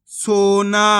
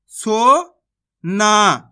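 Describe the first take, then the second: First: Said in the usual way. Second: Slow, stretched सोना, each sound held long; teacher drawing out सोना slowly; drawn-out demo word. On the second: Shown as a demonstration. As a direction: stretch सोना out for the class to hear. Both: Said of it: "तो मिलके बन जाएगा".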